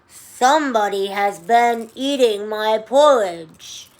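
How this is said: It is said in a loud, growly voice.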